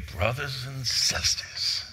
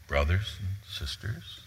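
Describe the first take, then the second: First: Slow, drawn-out Southern preacher greeting; Southern accent. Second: Soft, halting formal address with questioning rise; formal greeting. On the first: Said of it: "Do you do the Southern accent?". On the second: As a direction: say it formally and softly, ending upward. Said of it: "Just doesn't seem right to be formal here". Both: Shown as a demonstration.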